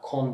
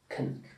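First: The vowel is a full, rounded o sound. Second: The vowel is a short, reduced neutral sound. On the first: The speaker calls it wrong. "Kon değil" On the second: The speaker calls it right. "ilki başı kın bir defa"

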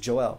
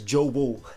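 First: The name is said plainly, with no W sound. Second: The name is said with a W sound inside. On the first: This is the name as it is normally said. "my real given name is Joel" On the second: This is how the mother says the name. "she says it really weird, she says Jobo, like with a W"

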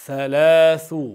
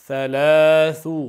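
The two takes are said the same way.

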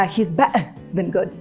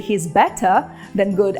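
First: The t in better becomes a glottal stop. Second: The t in better is clearly pronounced. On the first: "гортанна змичка" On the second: "британське «he's better than good»"

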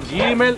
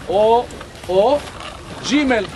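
First: It begins with a hard g sound. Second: It begins with a j sound. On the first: "יש את הגימל הדגושה" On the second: "כמו התימנים"

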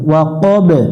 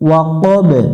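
Both takes have the same delivery.

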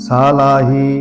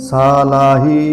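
No difference in how they are said.

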